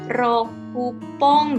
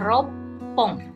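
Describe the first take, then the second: First: Full 'roku' is said, followed by a p sound. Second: It is contracted, with a doubled p after 'ro'. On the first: The speaker calls it wrong. "rokupong gitu ya" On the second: The speaker calls it right. "tapi dibacanya ropong"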